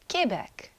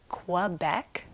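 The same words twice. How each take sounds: First: It is pronounced with a French accent. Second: It is pronounced with an English accent. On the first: "the French call it Quebec" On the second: "English people call it Quebec"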